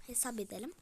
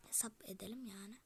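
First: Said in the usual way. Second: Soft whisper of "Hesap edelim"; whispered "Hesap edelim yani"; whispered repeat. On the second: Shown as a demonstration. Repeats the line, then whispers it.

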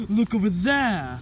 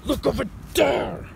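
First: Insistent exclamation, falling at the end; urgent pointing out. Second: Higher, exasperated cry rising at the end; exasperated insistence. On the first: Yokai tells doubter to look, urgent pointing out. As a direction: direct them firmly to look. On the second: Yokai scolds doubter who isn't looking, exasperated insistence. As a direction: insist with pitch jumping up. Repeats after not being heeded. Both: Acted.

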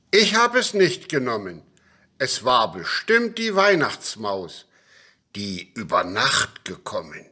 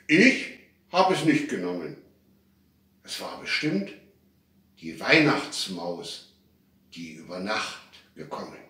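First: Called-out denial. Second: Outright denial. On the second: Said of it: "Da sagten alle rundheraus". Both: A narrator's reading.

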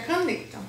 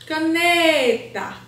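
First: Said in the usual way. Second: Caneta with NE loud, high and held long; stress on NE. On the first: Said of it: "Qual é a sílaba mais forte?". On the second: Shown as a demonstration. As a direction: sing out the middle syllable of Caneta, very slowly. (Caneta com o NE forte e bem esticado)

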